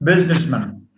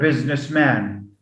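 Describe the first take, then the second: First: The final syllable has a reduced vowel. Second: The final syllable has a full vowel. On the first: The speaker calls it right. "Businessman with a schwa" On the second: The speaker calls it wrong. "we don't get postman or businessman"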